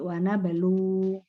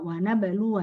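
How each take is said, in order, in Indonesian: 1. Kata itu berakhir tanpa vokal akhir. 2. Kata itu berakhir dengan vokal pendek.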